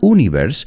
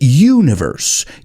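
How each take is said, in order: First: The first syllable begins with a plain oo sound. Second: The first syllable sounds like the word you. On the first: The speaker calls it wrong. "it's not universe" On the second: The speaker calls it right. "it's universe. ... Sounds like you"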